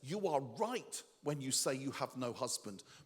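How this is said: It is said in an exaggerated way.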